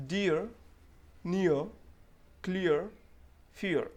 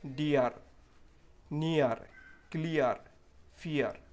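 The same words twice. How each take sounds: First: डियर, नियर, क्लियर, फियर with a clear ee-uh glide and no r; correct pronunciation. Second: डीआर, नियर, क्लियर, फियर with a hard rolled r at the end; wrong pronunciation. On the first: Teacher modelling the right way to say dear words. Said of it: "एक बार pronounce करके दे रहा हूँ". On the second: Teacher imitating non-native speakers' wrong pronunciation. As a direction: end each word on a firm r, the learner's mistake. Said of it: "वो लोग क्या mistake करते हैं". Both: Shown as a demonstration.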